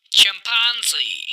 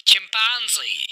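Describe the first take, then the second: No difference in how they are said.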